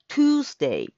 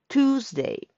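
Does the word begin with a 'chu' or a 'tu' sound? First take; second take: tu; tu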